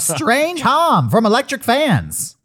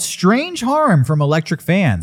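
First: It is said in an old-timey 1927 announcer voice. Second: It is said in his normal voice.

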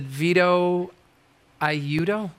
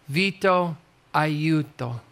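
First: The name is said with an American pronunciation. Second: The name is said with an Italian pronunciation. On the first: The speaker calls it wrong. "you've been mispronouncing your own name for 45 years" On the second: The speaker calls it right.

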